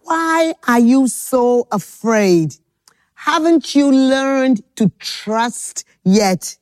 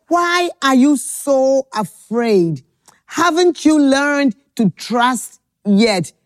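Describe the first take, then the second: First: Slow gentle question. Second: Slow gentle question again. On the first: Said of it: "he said to them". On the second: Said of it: "He said". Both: Acted.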